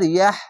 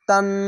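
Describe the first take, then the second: First: The word ends with a soft h sound. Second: The word ends with a t and n sound. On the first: The reader stops at the end of the word. "এভাবে থেমে যেতে হবে" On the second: The reader joins the word to the next one. "এভাবে মিলিয়ে পড়তে হতো"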